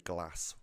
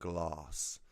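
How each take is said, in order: First: The vowel is short and flat, with no R. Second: The vowel is long, like 'glarss'. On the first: The speaker calls it right. "I will say glass" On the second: The speaker calls it wrong. "rather than glass ... why are you southern posh pricks pronouncing it?"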